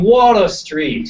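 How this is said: The R in 'Water' is dropped. This is how the local man says it.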